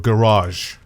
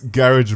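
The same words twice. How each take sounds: First: Garage is said in an American accent. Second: Garage is said in a British accent.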